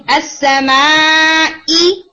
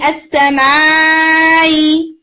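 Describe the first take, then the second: First: Slow अस्समाई with the hamza hit clearly from the throat. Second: Slow sung-out अस्समाई with the hamza barely touched; wrong soft hamza. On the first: Teacher demoing the correct hamza to students. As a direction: strike the hamza in अस्समाई at its origin. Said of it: "मखरज से उसकी आवाज clearly आनी चाहिए". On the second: Teacher showing students the eased hamza mistake. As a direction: stretch अस्समाई lazily, no glottal stop. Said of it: "अस्समाई ऐसे नहीं". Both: Shown as a demonstration.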